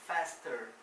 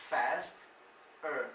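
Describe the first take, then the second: First: Said in the usual way. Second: "faster" as "fast", pause, "er"; slow "faster" with the ending set apart; split syllables. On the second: Shown as a demonstration. Teacher isolates the er ending.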